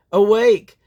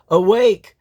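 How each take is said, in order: Both takes have the same delivery.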